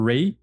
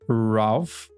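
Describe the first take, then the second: First: The name is said without an L, like 'Ray'. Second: The name is said with an L sound, like 'Ralph'. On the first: This is how other people say it. "eles falam Ray Fiennes" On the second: This is how it looks from the spelling. "eu diria Ralph"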